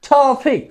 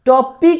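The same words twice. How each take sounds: First: The first t is strong and aspirated. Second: The first t is soft and unaspirated. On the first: The speaker calls it right. "এরকম ভাবে উচ্চারণ করার চেষ্টা করব" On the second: The speaker calls it wrong. "টপিক না কিন্তু"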